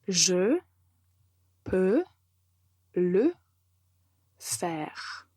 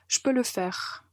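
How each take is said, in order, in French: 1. La phrase est dite lentement et soigneusement. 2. La phrase est dite rapidement, les mots sont enchaînés. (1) "écoutez la phrase" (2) "si vous voulez le dire plus vite"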